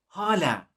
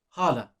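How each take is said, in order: First: The vowels sound thinner, higher and shorter. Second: The vowels sound plain, full and ordinary. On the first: It means still. "These make the as much thinner... a bit more high pitched, shorter" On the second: It means aunts. "the pronunciation is hala"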